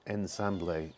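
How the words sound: The word is said with a Spanish accent. "but in Spanish it's ensamble"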